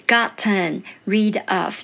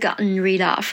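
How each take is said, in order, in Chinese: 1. 语速慢，'gotten' 完整发音。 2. 语速快，'gotten' 弱化成鼻音。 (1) "可是如果你没有办法" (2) "比较快，而且是有弱化成鼻音"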